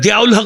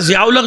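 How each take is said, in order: First: The name begins with a d sound. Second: The name begins with a z sound. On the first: "दियाउल हक़ बनता है" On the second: "उनका ज़ियाउल हक़ जो है"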